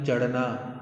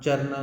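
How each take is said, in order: First: चढ़ना with a retroflex flap, not r; correct pronunciation. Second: चरना with a tapped r; wrong pronunciation. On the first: Teacher corrects the misspelt word, correctly pronounced. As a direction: say चढ़ना as "chadhna". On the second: Teacher rejects the misspelt word, mispronounced. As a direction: say चरना as "charna", no retroflex. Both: Shown as a demonstration. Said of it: "चरना नहीं".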